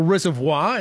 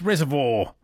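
First: "Reservoir" ending in -vwah; wrong French-style Reservoir. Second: "Reservoir" ending in -vor; local Reservoir. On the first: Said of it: "It's not". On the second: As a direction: end "Reservoir" on a plain vor. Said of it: "it's Reservoir". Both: Shown as a demonstration.

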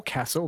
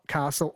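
First: "castle" with a short A, "KASS-ul". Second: "castle" with a long A, "KAH-sul". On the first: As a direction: say "castle" with the vowel of "cat". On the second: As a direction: say "castle" with the vowel of "father". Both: Shown as a demonstration. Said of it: "Not castle or castle".

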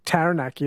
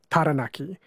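First: Taranaki with the A sound of cat; anglicised pronunciation. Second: Taranaki with open "ah" vowels, not cat; Māori pronunciation. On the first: Host showing the mistake to avoid, Taranaki with cat-like A. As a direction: say Taranaki with English short A, as in cat. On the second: Host correcting the vowels for listeners, Taranaki with open Māori A. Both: Shown as a demonstration. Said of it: "they don't have the A sound like cat".

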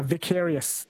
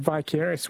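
First: "vicarious" with a short i, vik-AIR-ee-us; short-i pronunciation. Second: "vicarious" with a long i, vy-CARE-ee-us; long-i pronunciation. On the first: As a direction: say "vicarious" opening like "Vic". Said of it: "We have a, a vicarious". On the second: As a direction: say "vicarious" opening like "vie". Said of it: "a lot of people said vicarious". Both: Shown as a demonstration.

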